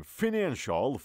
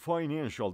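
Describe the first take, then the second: First: Financial begun with a short "fin"; short-i pronunciation. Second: Financial begun like the word "fine"; long-i pronunciation. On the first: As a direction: say Financial as "fi-NAN-shal". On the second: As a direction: say financial as "fy-NAN-shal". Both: Shown as a demonstration. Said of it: "دو تلفظ ما داریم".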